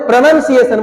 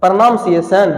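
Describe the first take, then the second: First: प्रोनंसिएशन with short "nun", not "naam"; correct pronunciation. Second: प्रोनंसिएशन said with "pranaam" at the front; lower-pitched, long "naam" inside प्रोनंसिएशन; wrong pronunciation. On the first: Teacher tells class what to say, correct pronunciation. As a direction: keep the second syllable of प्रोनंसिएशन short. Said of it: "प्रणाम से नहीं, प्रोनंसिएशन बोलो". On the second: Teacher echoes the students' slip, wrong pronunciation. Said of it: "प्रणाम से नहीं". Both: Shown as a demonstration.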